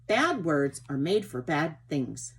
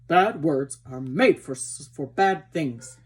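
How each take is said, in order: First: Plainer, lightly voiced mare; Ginger's voice. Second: Slow, loud, put-on horse voice; wrong character voice. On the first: Ginger answers Merrylegs, lightly voiced. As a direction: say it at an even level, barely in character. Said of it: "said Ginger". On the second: Reader gives Ginger's line in the wrong voice, slow and loud. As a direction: draw it out heavily and loud. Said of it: "messing these, these, um, voices up". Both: A narrator's reading.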